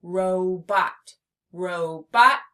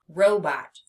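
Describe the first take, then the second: First: "Robot" as two firm, separate beats; teacher counting out "Robot"; split into syllables. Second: Said in the usual way. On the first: Shown as a demonstration. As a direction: pause between ro and bot in "Robot". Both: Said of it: "Two syllables".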